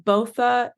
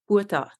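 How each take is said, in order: First: It is said the Canadian way. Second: It is said the Afrikaans way.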